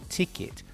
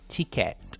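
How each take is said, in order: First: The last syllable is said like 'it'. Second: The last syllable is said like 'et'. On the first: The speaker calls it right. "the pronunciation is ticket" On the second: The speaker calls it wrong. "No, it's not ticket"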